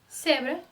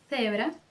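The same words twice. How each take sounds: First: The first sound is a plain hissing 's'. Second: The first sound is a 'th' made between teeth. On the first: This is how Latin America says it. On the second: This is how most of Spain says it. "Com a língua entre os dentes. Vamos mais uma vez?"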